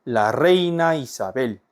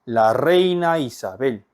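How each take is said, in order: Both takes have the same delivery.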